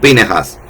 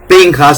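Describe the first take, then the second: First: A short e is heard between the n and j. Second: No vowel is heard between the n and j. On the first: "una E pronunciada" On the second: "una E muda"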